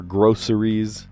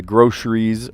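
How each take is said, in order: First: "groceries" said as "GROH-suh-reez"; three syllables in "groceries", s not sh. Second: "groceries" said as "GROH-shreez". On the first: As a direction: say "groceries" with a clean s in the middle. Second take after "or. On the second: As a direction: say "groceries" with a sh in the middle. Contrasts two ways of saying groceries. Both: Shown as a demonstration.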